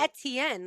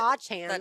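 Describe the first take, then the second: First: It begins like 'etouffee', with a t sound. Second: It begins with an 'ah' then a 'ch' sound. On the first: The speaker calls it right. "like etouffee" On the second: The speaker calls it wrong.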